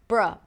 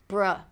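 The two takes are said the same way.

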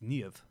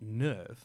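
First: It is said with a German-style pronunciation. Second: It sounds like the English word nerve. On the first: The speaker calls it right. "all the names are based off Germanic names" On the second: The speaker calls it wrong. "it's not NERV"

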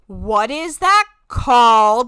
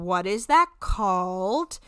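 First: The question is asked louder and more pointedly. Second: The question is asked at normal volume.

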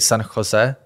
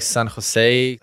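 First: The name is said with Czech pronunciation. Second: The name is said with English pronunciation. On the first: This is how it is said in the speaker's own language. "because I would say in my language, I would say San Jose" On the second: This is how other people say it locally. "Someone's saying like San Jose"

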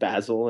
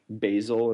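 First: Basil is said with a British pronunciation. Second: Basil is said with an American pronunciation. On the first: "instead of basil" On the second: "American pronunciation of words like basil"

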